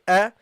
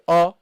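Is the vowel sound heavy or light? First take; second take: light; heavy. First: The sound is light and thin. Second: The sound is heavy and full. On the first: The speaker calls it right. "light letter. Say a" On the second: The speaker calls it wrong. "Don't say a"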